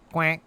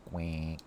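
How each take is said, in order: First: A plain spoken quack. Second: Much lower, softer, breathy quack. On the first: Quacking at chat like a duck. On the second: Quacking again, deep and quiet. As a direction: drop it low like a sleepy duck. Duck noises. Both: Pretend.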